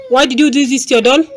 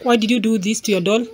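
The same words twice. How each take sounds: First: Faster, louder and higher scolding repeat; sharper scolding. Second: Said in the usual way. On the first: Real, not acted. Repeats the question more sharply.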